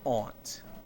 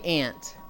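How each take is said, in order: First: The word has an open 'ah' vowel. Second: The word sounds exactly like 'ant'. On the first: This is how it is said in some regions. "some places in the U S where they would pronounce it" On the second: This is the speaker's own way of saying it. "I say ant"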